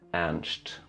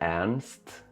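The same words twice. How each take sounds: First: The r and s merge into one sh-like sound. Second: The r and s are pronounced as separate sounds. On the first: The speaker calls it right. "du säger Ernst" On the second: The speaker calls it wrong. "du säger inte Ernst"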